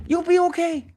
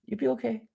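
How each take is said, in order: First: Much higher, pushed "You'll be okay"; high emphatic reassurance. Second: Softer, gentle "You'll be okay"; softer reassurance. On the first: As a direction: sell it hard to the viewer. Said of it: "advising viewers loudly". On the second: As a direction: settle it down kindly. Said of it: "repeats advice softer". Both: Real, not acted.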